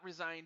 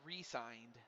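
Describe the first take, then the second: First: It is said as resigned, run together as one word. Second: It is said as re-signed, with a separate prefix. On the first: He quit. The speaker calls it wrong. "Not resigned as in you quit" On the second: He signed a contract again. The speaker calls it right. "it was supposed to be re-signed, like like this"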